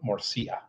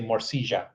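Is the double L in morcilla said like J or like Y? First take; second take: Y; J. First: The double L sounds like a Y. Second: The double L sounds like a J. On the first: This is the Mexican way of saying it. "where they pronounce the double L as a Y" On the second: This is the Colombian way of saying it. "In Colombia, they pronounce the double L like a J"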